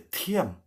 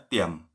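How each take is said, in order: First: "Tiam" high and falling, with aspirated t; high, softer "Tiam", said as "thiam"; air from mouth. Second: "tiam" low, with an unaspirated t; low falling "tiam"; tone for "quiet". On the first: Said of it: "dari udara itu dari mulut ya". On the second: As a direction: say "tiam" low and short, no puff of air. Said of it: "Intonasinya ya". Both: Shown as a demonstration.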